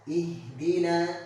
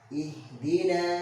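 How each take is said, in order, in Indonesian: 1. Bunyi h dihembuskan dengan ringan dan sedang. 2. Bunyi h dihembuskan dengan ringan dan sedang.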